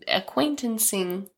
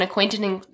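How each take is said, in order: First: "acquaintancing" drawn out slowly, syllable by syllable; slow made-up word. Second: Said in the usual way. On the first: Shown as a demonstration. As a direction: spell out "acquaintancing" slowly, testing the new word. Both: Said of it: "Is that a word?".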